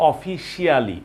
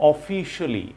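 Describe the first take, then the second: First: "officially" with a full "shi-aa-li" ending; common mispronunciation. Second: "officially" with a short "shuli" ending; correct pronunciation. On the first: Teacher mimics what learners say, mispronunciation. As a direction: say "officially" as "o-fi-shee-AH-lee". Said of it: "আমরা বলি". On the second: Teacher models the word for learners, correct pronunciation. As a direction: say "officially" as "o-FI-shuh-lee". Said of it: "it should be". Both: Shown as a demonstration.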